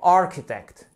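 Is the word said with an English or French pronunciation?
English. The word is said with English pronunciation. The speaker calls it right. "c'est architect. Vous avez vraiment une accentuation qui se fait juste ici"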